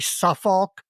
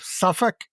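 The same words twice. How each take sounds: First: Suffolk is said with an American pronunciation. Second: Suffolk is said with a native English pronunciation. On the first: The speaker calls it wrong. "hearing me say Suffolk" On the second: The speaker calls it right. "instead of Suffolk"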